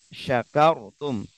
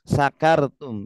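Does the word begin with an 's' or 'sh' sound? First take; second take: sh; s. First: The first sound is a sh. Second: The first sound is a plain s. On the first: It means being thankful. The speaker calls it right. "yang benar sh- syakartum" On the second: It means something else, not being thankful. The speaker calls it wrong. "itu disalahkan nanti"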